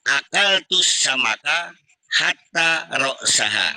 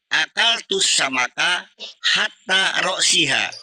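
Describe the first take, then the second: First: The last word has an a vowel before -ha. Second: The last word has an i vowel before -ha. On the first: The fish was eaten so that its head was finished. "Saya baca hatta roksaha" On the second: The fish was eaten up to its head. "Kita baca kasro hatta roksiha"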